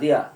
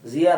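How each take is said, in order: First: The word begins with a 'd' sound. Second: The word begins with a 'z' sound. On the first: The speaker calls it right. "জিয়া না দিয়া?" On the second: The speaker calls it wrong. "জিয়া না দিয়া?"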